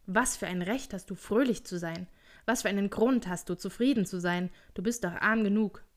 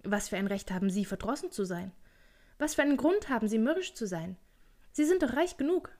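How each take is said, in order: First: Lightly voiced grumbling uncle; grumpy challenge. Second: Lively teasing, pitched up by the end; cheerful retort. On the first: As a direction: question it with a touch of disdain. Scrooge challenges his cheerful nephew. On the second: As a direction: toss the question back merrily. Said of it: "versetzte der Neffe munter". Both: A narrator's reading.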